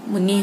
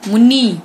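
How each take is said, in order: First: Said in the usual way. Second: मुनि with a loud, long final "ee"; mispronounced vowel. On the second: Shown as a demonstration. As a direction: stretch मुनि to "mu-NEE". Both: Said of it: "मुनि होता है".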